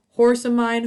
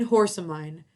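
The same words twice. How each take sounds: First: Loud high call to the horse. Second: Said in the usual way. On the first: Acted. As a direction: call out across the field. Witch calls out to horse.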